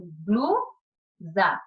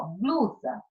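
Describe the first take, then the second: First: "blusa" broken in two, pause after blu; blusa split by syllables. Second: Said in the usual way. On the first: Shown as a demonstration. Teacher separating the word for pupils, "blusa" split into syllables. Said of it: "Então, eu separo". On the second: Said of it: "Quando eu separo a palavra blusa".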